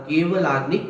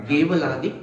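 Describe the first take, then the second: No difference in how they are said.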